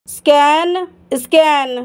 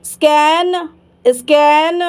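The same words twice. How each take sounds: The two takes are said the same way.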